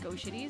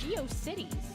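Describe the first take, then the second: First: The name is said like 'go-shitties'. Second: The name is said like 'geo-cities'. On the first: The speaker calls it wrong. "it's not pronounced GoShitties" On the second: The speaker calls it right. "it's GeoCities"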